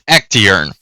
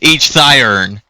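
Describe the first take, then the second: First: The name starts with an 'ect' sound. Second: The name starts with an 'each' sound. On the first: The speaker calls it right. "that sounds a lot better" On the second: The speaker calls it wrong. "that sounds a lot better than each thiern"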